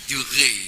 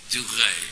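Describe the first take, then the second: The two takes are said the same way.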